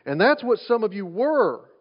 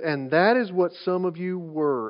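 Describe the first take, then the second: First: "were" stretched out with a pitch swell; stress on WERE. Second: Said in the usual way. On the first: Shown as a demonstration. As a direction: lean hard on the word "were". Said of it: "Emphasis on the word were". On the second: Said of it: "pay attention to the four-letter word".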